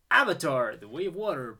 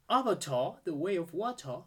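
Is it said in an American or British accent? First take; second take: American; British. First: It is said in an American accent. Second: It is said in a British accent.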